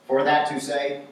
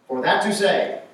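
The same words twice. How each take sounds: First: Plain first reading of "For that to say". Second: "for that to say" with "that" pushed high and louder; stressed repeat. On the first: Preacher reads the odd wording plainly to the congregation. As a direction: say "For that to say" once, evenly, as written. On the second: Preacher repeats the odd wording to the congregation, stressing "that". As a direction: hit "that" hard in "for that to say" to show its oddness. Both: Shown as a demonstration. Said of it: "that would be kind of odd for us".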